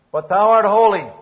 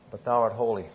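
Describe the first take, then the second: First: But thou art holy, much higher and louder, ringing out; proclaimed loudly. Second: Said in the usual way. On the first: Shown as a demonstration. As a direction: lift the voice on art and declare it. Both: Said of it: "repeated with contrast".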